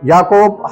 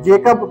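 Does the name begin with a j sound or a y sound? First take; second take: y sound; j sound. First: The name begins with a y sound. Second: The name begins with a j sound. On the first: "यचा उच्चार आहे मराठीमध्ये व्यवस्थित य" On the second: "इंग्रजी प्रोनाऊन्सेस मध्ये घेणारे जे लोक आहेत ते ... जेकब घेतात"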